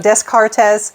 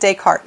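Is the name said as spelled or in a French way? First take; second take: as spelled; French way. First: The name is pronounced following its English spelling. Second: The name is pronounced in a French way. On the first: The speaker calls it wrong. "since the spelling of the name, uh, sometimes people will, will uh, struggle with pronunciation" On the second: The speaker calls it right. "my understanding is uh, it is Descartes"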